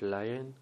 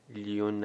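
First: The word begins with a 'lai' sound. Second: The word begins with a 'lee' sound. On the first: The speaker calls it right. "تلفظ صحیحش لاین" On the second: The speaker calls it wrong. "لیون نخونید"

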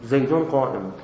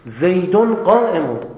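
First: The sentence is said flatly without emphasis. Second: The sentence is said with forceful emphasis. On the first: The speaker simply reports the fact. "هیچ تأکیدی هم نداره" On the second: The speaker insists the statement is true. "این الان تأکید کرد"

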